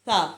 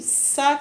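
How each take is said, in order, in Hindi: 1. "sa" का व्यंजन नरम है, इसमें सीटी जैसी सिसकार नहीं। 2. "sa" का व्यंजन तेज़ है और इसमें सीटी जैसी सिसकार है। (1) "बिल्कुल नरमी से पढ़ना है, इसमें सीटी की आवाज़ नहीं आनी चाहिए" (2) "सा करके पढ़ेंगे तो ये सीन की साउंड देगा"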